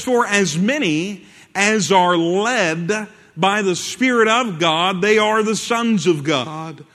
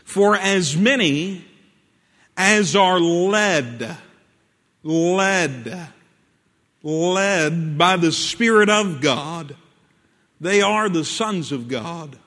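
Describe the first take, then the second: First: It is read at a normal pace. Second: It is read very slowly.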